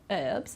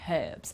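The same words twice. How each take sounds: First: It is said without an h sound at the start. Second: It is said with an h sound at the start. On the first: "in American English they don't pronounce the H" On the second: "in British English there we will pronounce uh, pronounce the H"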